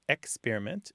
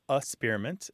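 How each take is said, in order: First: The first syllable is said as a full 'ex'. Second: The first syllable is a weak 'uh' sound. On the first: "some people, it's experiment" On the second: "some people it's a-spearment"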